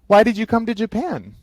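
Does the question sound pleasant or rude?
pleasant. It sounds friendly, with a rising, pleasant tone. The asker is warmly curious. The speaker calls it right. "it sounds like nice and pleasant, like their tone is raising up"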